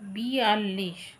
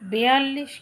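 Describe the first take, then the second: First: The first syllable has an i vowel. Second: The first syllable has an e vowel. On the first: The speaker calls it right. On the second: The speaker calls it wrong.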